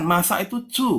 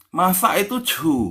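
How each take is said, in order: First: "chu" ends on a rising tone; corrected model. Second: "chu" said slowly, falling; teacher modelling Hokkien. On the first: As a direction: say "Masak itu chu" with "chu" rising. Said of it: "C U". ("chu" dengan nada naik) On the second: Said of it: "C H U, bukan". (ucapkan "chu" pelan dengan nada turun) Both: Shown as a demonstration.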